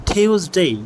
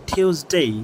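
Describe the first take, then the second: The two takes are said the same way.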